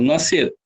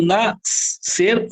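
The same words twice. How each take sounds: First: Said in the usual way. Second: NASCER split as nas-cer, with a long separate hiss of S; split pronunciation. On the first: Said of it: "Falo nascer". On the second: Shown as a demonstration. Teacher testing for a digraph, nascer pulled apart. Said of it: "É dígrafo. Eu falo".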